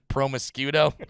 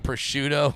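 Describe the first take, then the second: First: The word is said with an added M sound. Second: The word is said without any M sound. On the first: The speaker calls it wrong. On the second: The speaker calls it right.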